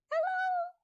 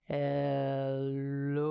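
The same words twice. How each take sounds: First: Very high squeaky "Hello"; squeaky mouse "Hello" in a kids' song. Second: Deep "Hello" from the belly; deep belly "Hello" in a kids' song; low hello. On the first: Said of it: "as high as we can". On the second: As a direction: say "Hello" as low as you can. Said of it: "as low as we can". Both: Shown as a demonstration.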